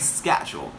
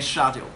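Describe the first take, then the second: First: It is said with an American pronunciation. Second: It is said with a British pronunciation. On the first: "If you followed American English, you can pronounce um, schedule" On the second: "my accent, which is British accent, you can pronounce schedule"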